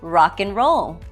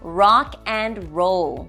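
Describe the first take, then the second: First: The middle word is clipped into the others. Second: The middle word is said fully and clearly.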